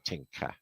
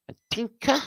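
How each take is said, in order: First: Said in the usual way. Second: Tinker called out much higher, in a playful squeak; squeaky call-out. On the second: Acted. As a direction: sing out Tinker in a high, teasing squeak.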